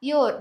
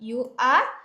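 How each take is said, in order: First: The words are run together into one syllable. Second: Two separate words are said in full.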